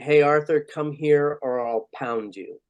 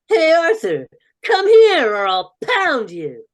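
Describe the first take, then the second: First: It is said in his normal voice. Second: It is said in Binky's character voice.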